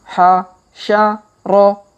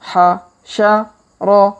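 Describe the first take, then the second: No difference in how they are said.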